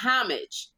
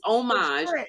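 First: The word begins with an audible H sound. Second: The word begins without any H sound. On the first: The speaker calls it wrong. "It's not homage" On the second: The speaker calls it right. "It's homage and H silent"

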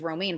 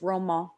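First: The name is said like the English lettuce word. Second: The name is said with a French pronunciation. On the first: The speaker calls it wrong. "when I first heard the name Romaine, I thought it was Romaine" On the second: The speaker calls it right. "but it's Romain"

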